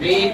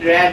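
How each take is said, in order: First: The vowel is long, like 'reed'. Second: The vowel is short, like 'red'. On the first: It is the present form of the verb. "বি one" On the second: It is the past form of the verb. "পার্টিসিপলে এটার উচ্চারণ হবে রেড"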